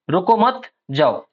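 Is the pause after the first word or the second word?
second word. There is a pause after the second word.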